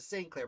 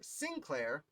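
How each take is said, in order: First: The first syllable sounds like the word saint. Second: The first syllable sounds like the word sin. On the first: The speaker calls it wrong. "I've always defaulted to Saint Clair" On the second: The speaker calls it right. "I will make an effort to do it correctly"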